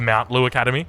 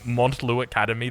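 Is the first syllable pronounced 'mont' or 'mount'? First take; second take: mount; mont. First: The first syllable sounds like 'mount'. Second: The first syllable sounds like 'mont'. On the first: The accepted form of the name. The speaker calls it right. "when I know it's the Mount Lou Academy" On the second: A long-held habit that persists. The speaker calls it wrong. "still calling what is it, Montlou Academy"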